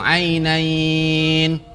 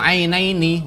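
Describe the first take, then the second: First: The word stops with a lengthened vowel glide. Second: The word ends with an added short vowel. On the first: The reader pauses after this word. "kalau diwakafkan bacanya jadi panjang" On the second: The reading continues into the next words. "tidak boleh dibaca apa uh, panjang"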